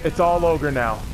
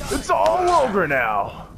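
First: Said in the usual way. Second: "ogre" stretched high and slow; drawn-out shout. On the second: Shown as a demonstration. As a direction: bellow it like a triumphant battle cry. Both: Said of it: "repeats catchphrase in new ways".

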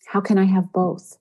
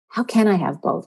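First: Said in the usual way. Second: Emphasis on the word "can"; stress on CAN. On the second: Shown as a demonstration. Host showing listeners how to ask themselves, stress on "can". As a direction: lean on "can" in the question. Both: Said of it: "With the emphasis on the can".

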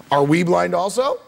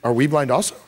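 First: "also" stretched with a rising end, like a question; stress on also. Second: "we" pushed up and leaned on, a questioning Pharisee; stress on we. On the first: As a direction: lean on "also" and let it rise. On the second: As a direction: hit the word "we" in "Are we blind also?". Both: Shown as a demonstration. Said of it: "to see the inflection in their voice".

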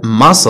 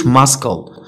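First: Muscle as "mus-ul", no K sound; silent C. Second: Muscle as "mas-kal" with a hard K; sounded C. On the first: Teacher giving the correct word, silent C. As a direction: leave the C out of muscle. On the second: Teacher showing the mistake to avoid, sounded C. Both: Shown as a demonstration. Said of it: "ما كنقولوش muscle".

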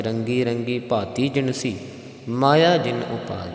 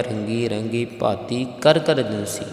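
First: "ਭਾਤੀ ਜਿਨਸੀ" with no ਕਰ ਕਰ and a pause after "ਜਿਨਸੀ"; Sodar reading. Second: "ਕਰ ਕਰ ਜਿਨਸੀ" read with the words ਕਰ ਕਰ included, as in Japji; usual Japji reading. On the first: Teacher shows the correct Sodar reading, pause after "ਜਿਨਸੀ". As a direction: drop ਕਰ ਕਰ, rest on "ਜਿਨਸੀ" before "ਮਾਇਆ ਜਿਨ ਉਪਾਈ". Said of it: "ਜਿਨਸੀ ਦਾ ਵਿਸ਼ਰਾਮ ਵੀ ਆਪ ਜੀਆਂ ਨੇ ਯਾਦ ਰੱਖਣਾ". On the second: Teacher shows the Japji reading before the Sodar one, "ਕਰ ਕਰ" spoken. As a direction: say "ਰੰਗੀ ਰੰਗੀ ਭਾਤੀ ਕਰ ਕਰ ਜਿਨਸੀ" the Japji way, with ਕਰ ਕਰ. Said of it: "ਇੱਥੇ ਕਰ ਕਰ ਪਾਠ ਨਹੀਂ ਆਵੇਗਾ".

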